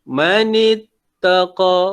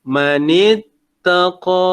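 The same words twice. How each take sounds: First: اتَّقَى cut short on the last vowel; short final vowel. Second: اتَّقَى chanted with the last vowel held for two counts; long final vowel. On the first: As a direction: stop اتَّقَى without holding its ending. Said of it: "Jangan berhenti". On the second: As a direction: draw out the end of اتَّقَى. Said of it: "panjangkan dia". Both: Shown as a demonstration.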